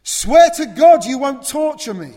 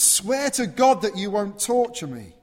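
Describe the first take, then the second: First: Screamed much higher and louder; crying out. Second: Loud, high, urgent cry; loud plea. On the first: Possessed man screaming his plea to Jesus at full force. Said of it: "he cries it out". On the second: Possessed man begging Jesus, a loud raised cry. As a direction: shout the plea out. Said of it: "he shouts that out". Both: Acted.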